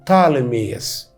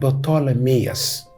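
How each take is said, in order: First: The name begins with a t sound. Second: The name begins with a p sound. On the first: This is how it is said in modern English. "ما ننطقش البي الاولانيه" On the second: This is the original Greek form of the name. "اسمه باللغة اليونانية بطولميوس"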